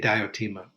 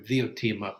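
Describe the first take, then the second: First: The name begins with a D sound. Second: The name begins with a th sound. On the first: This is how it is usually said today. "but we say Diotima" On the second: This is how it was said in Greek. "probably was the Greek pronunciation. The D sometimes has a th sound in Greek"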